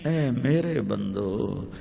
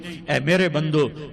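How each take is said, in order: First: It is said in a warm, tender tone. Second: It is said in a plain, flat tone. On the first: The speaker calls it right. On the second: The speaker calls it wrong.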